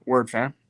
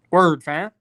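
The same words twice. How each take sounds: First: Said in the usual way. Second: Hammed-up street greeting, punched and louder; louder mock Toronto slang. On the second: Streamer answering chat, hamming up Toronto slang louder. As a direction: repeat it louder, playing up the slang.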